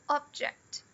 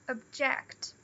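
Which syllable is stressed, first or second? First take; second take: first; second. First: The stress is on the first syllable. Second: The stress is on the second syllable. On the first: It is the noun. "Aqui a gente tem o object" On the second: It is the verb. "E o verbo é o object"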